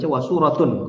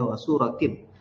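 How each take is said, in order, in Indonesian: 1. Kata ini berakhir dengan bunyi -un. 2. Kata ini berakhir dengan bunyi -in. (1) "jangan sampai dibaca wasuratun" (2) "Tapi dibacanya wasuratin"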